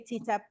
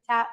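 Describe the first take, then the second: First: The name is said as two syllables. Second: The name is said as one syllable. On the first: This is how other people say the name. "Many people say T-tap" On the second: This is how the method's creator says the name. "I pronounce it tap method"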